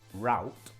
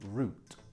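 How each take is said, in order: First: It is said with an American pronunciation. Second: It is said with a British pronunciation. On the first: "The American, of course" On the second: "in England we say route"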